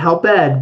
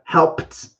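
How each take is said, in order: First: The ending is an extra separate syllable. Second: The ending is a short T sound. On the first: The speaker calls it wrong. "Not help ed" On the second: The speaker calls it right. "it has a T sound at the end with the E D"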